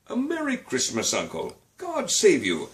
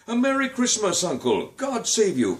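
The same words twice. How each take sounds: First: Cheerful cry. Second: High bright call of greeting, wistful edge; wistful cheerful cry. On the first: Nephew greets his uncle again, cheerful and high. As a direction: call out a plain happy Christmas greeting. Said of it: "cried a cheerful voice". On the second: Nephew greets his uncle with a wistful, high, loud cry. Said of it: "cried a wistful, cheerful voice". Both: A narrator's reading.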